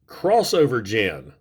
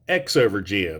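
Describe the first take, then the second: First: The name begins with the word 'cross'. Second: The name begins with the letter sound 'ex'. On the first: The speaker calls it right. "that is pronounced crossover gen" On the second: The speaker calls it wrong. "not X-over gen"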